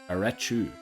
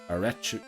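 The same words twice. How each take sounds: Both takes have the same delivery.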